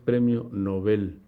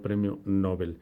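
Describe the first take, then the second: First: The stress is on the last syllable of Nobel. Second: The stress is on the first syllable of Nobel. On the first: The speaker calls it right. "también es aguda" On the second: The speaker calls it wrong. "no premio Nobel"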